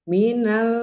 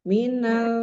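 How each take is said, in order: Both takes have the same delivery.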